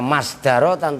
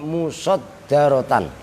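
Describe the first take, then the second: First: The middle consonant is single, with an 'a' first. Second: The middle consonant is doubled, with a 'u' first. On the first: The speaker calls it wrong. "jangan dibaca masdarotan" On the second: The speaker calls it right. "tapi musod darotan"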